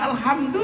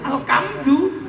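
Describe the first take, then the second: First: It is said with a standard Arabic h sound. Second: It is said with a k sound instead. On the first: The speaker calls it right. "disuruh alhamdu" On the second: The speaker calls it wrong. "Orang Jawa"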